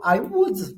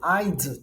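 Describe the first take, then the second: First: It is said as two full separate words. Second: It is said as one short contracted syllable.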